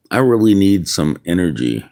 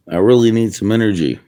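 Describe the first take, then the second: First: Said in the usual way. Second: Faster, higher, pushing harder on really; urgent plea. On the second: Real, not acted. Man begging God for energy, quick and urgent. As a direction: blurt it out like a desperate repeated prayer.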